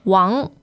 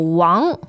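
First: The vowel is a broad open 'ah'. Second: The vowel is a broad open 'ah'.

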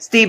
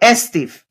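First: The name is said with plain English pronunciation. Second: The name is said with a Spanish-accented pronunciation. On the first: This is the name as its owner says it. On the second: This is how someone else says the name.

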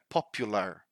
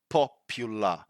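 First: The word ends with an audible R sound. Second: The word ends without an R sound. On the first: This is the American pronunciation. "in American English, they do pronounce the R" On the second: This is the British pronunciation. "in British English, the standard pronunciation would be popular because we don't pronounce the R"

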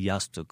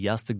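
First: The word is pronounced the Bosnian way. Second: The word is pronounced the Turkish way. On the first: "they say yastuk" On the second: "They do not say yastuk"

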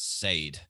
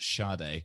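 First: The name is read out as it is spelled. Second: The name is not read out as spelled. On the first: The speaker calls it wrong. "she pronounced it as Sade" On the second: The speaker calls it right. "which we all know is actually pronounced Sade"

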